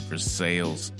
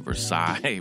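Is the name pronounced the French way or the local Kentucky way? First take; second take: Kentucky; French. First: The name is pronounced the local country way. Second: The name is pronounced the French way. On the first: This is how locals in rural Kentucky say it. "we say Versailles because of our country we are" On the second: This is how the French town is said. "like the town from France, but we're country, so we don't say Versailles"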